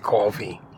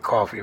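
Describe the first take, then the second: First: The word is said in a New Jersey accent. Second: The word is said in a general American accent. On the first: "I'm also from New Jersey. We do things different. We say coffee" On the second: "We don't say coffee"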